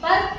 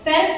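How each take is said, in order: First: The vowel sounds like 'uh'. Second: The vowel sounds like 'eh'. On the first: The speaker calls it right. "ಅ sound, ಪರ್ಕ್ ಅಂತ ಕರಿತೀವಿ" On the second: The speaker calls it wrong. "ಪೆರ್ಕ್ ಅನ್ನಲ್ಲ"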